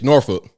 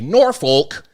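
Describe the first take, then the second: First: The name is said short and plain, without exaggeration. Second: The name is drawn out with exaggerated mouth movement. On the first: The speaker is from Virginia. The speaker calls it right. "Just say Norfolk" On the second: The speaker is not from Virginia. The speaker calls it wrong. "you're exaggerating it too much"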